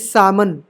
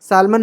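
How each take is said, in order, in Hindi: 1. L की ध्वनि छोड़ दी जाती है। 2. L की ध्वनि बोली जाती है।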